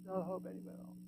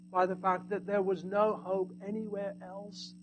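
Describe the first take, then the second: First: No hope anywhere else repeated much softer, almost hushed; soft echo. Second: Said in the usual way. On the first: Shown as a demonstration. Preacher echoing his point to the congregation, hushed. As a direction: let the words sink in quietly.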